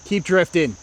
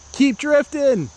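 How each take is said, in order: First: Said in the usual way. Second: Higher, insistent call to the disc; will it onward, pitch leaping up; urgent coaxing. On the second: Real, not acted. Urging disc again, more insistently.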